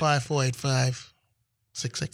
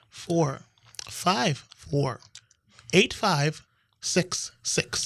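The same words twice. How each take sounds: First: The number is said fast. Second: The number is said slowly.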